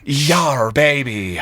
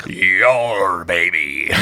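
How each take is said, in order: First: Pirate captain bellowing it out; shouted pirate captain. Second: Gruff pirate growl, light; pirate captain voice. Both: Acted. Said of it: "pirate captain voice".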